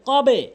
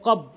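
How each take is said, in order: First: The final b is released with an echoing bounce. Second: The final b is cut off without any echo. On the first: The speaker calls it right. "সঠিক উচ্চারণ হচ্ছে কবে। কবে এটি একটি নিয়ম, ... কলকলা" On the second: The speaker calls it wrong. "ভুল উচ্চারণ"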